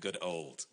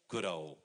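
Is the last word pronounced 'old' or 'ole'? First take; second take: old; ole. First: The last word ends with a d sound. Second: The last word ends without a d sound. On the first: It lacks the affectionate sense. "not O-L-D" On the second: It expresses affection. "O-L-E is more of a poetic, affectionate"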